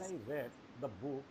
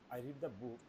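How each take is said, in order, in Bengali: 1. Read-এ ছোট e স্বরধ্বনি আছে, red-এর মতো। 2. Read-এ দীর্ঘ ee স্বরধ্বনি আছে, reed-এর মতো। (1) "this indicate past indefinite" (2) "this is uh, indicate present indefinite"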